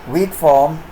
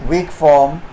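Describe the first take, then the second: No difference in how they are said.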